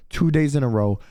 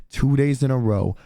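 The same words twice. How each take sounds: The two takes are said the same way.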